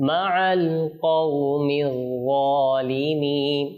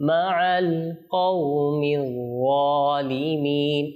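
The two takes are said the same way.

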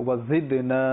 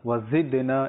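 Both takes have the same delivery.

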